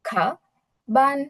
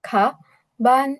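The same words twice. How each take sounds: Both takes have the same delivery.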